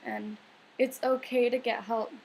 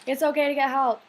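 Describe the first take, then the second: First: Said in the usual way. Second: Louder, insistent, okay stressed; firm emphasis. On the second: Real, not acted. Telling struggling viewers firmly that help is okay. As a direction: drive the point home.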